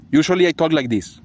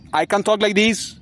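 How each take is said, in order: First: Said in the usual way. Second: Higher-pitched way of talking; altered voice demo. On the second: Shown as a demonstration. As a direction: show a put-on voice, pitched up.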